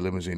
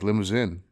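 First: It ends with a long English 'een' sound. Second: It ends with a French-style ending, no 'een'. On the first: The speaker calls it wrong. "It's not actually limousine" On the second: The speaker calls it right. "It's like limousin"

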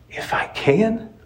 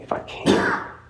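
First: It is said eagerly, with excitement. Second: It is said flatly, without excitement.

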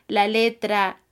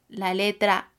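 No difference in how they are said.

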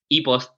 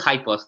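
First: The name is pronounced the Spanish way. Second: The name is pronounced the English way. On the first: "They use like a Spanish word, and they call e-post" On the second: "I prefer High Post. That's the real name, the real pronunciation"

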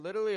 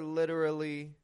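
First: The word is said quickly without extra stress. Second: The word is stressed with a raised pitch. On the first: It is used in an informal sense. "I'm pronouncing it quicker. I'm not giving it the same emphasis" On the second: It conveys the literal, exact meaning. "notice I'm raising my tone on literally to give it that extra emphasis"

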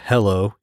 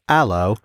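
First: It is said in a plain accent with H. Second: It is said in a British accent, no H.

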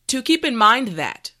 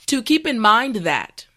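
No difference in how they are said.

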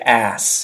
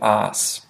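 First: The word is said with an American accent. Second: The word is said with an Australian accent. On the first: "in American English, they would say ass" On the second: "instead of ass"

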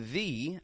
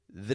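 First: The word 'the' is said in its full, clear form. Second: The word 'the' is said in a quick, quiet, reduced form. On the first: "I didn't even say the full word the, and I didn't say the" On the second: "I just pronounced it quick and quiet"

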